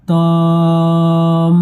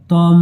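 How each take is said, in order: First: "তম" stretched long on one note; long madd. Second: "তম" said briefly with a short vowel; short take. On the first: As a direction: hold the vowel of "তম", then hum the m. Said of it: "উপরে বড় মাদ". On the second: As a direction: close quickly onto the m of "তম". First take before madd is pointed out. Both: Shown as a demonstration.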